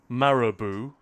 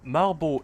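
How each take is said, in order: First: The name is said with a British pronunciation. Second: The name is said with a Danish pronunciation. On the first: "I guess you'd say, if it were British" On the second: "That's how they pronounce it in Danish"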